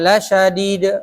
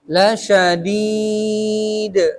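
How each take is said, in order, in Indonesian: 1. Vokal sebelum huruf d terakhir dibaca pendek. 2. Vokal sebelum huruf d terakhir dibaca panjang. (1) "jangan la syadid, yang begitu" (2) "panjangkan dulu empat harokat. La syadid, begitu"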